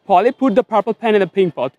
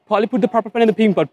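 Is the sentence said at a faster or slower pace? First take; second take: slower; faster. First: It is said at a slower pace. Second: It is said at a faster pace. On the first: "Practice with me" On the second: "একটু দ্রুত বলা try করি"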